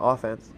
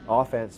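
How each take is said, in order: First: Said in the usual way. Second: Offense with a Canadian accent, first syllable stressed. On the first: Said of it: "Or if you're Canadian". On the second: Shown as a demonstration. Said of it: "said with a Canadian accent".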